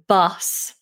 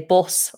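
First: It has the open RP 'strut' vowel. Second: It has the rounded Northern English vowel. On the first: "the very posh RP vowel" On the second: "We'd say"

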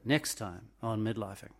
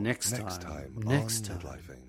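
First: The voice sits high and thin in the throat. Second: The voice sits low and resonant in the chest. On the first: The speaker calls it wrong. "No, I can't even do it" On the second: The speaker calls it right. "That's better. Can you feel it in your chest?"

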